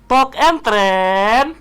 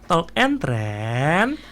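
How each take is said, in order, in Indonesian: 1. Diucapkan keras, hampir berteriak. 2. Diucapkan dengan volume suara normal.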